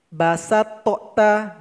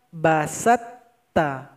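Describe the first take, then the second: First: The first t sound is released separately. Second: The two t sounds merge into one doubled t. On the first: The speaker calls it wrong. "Salah kalau kita baca basa tokta, nggak boleh" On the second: The speaker calls it right. "Yang betul itu"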